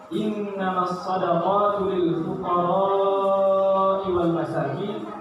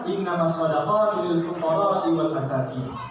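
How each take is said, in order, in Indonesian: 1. Vokal pada fuqara'i dibaca panjang. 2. Vokal pada fuqara'i dibaca pendek. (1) "empat harakat panjangnya" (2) "tanpa ada madnya"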